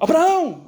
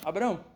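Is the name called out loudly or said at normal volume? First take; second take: loud; normal. First: The name is shouted loudly and urgently. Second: The name is said at a normal, calm volume. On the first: "o anjo bradou" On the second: "ele falou com Abraão"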